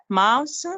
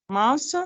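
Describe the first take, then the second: No difference in how they are said.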